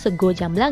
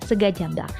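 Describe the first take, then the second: First: The first word ends with an 'o' sound. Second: The first word ends with an 'a' sound. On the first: The speaker calls it right. "dibacanya sego jamblang ya" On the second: The speaker calls it wrong. "bukan sega jamblang"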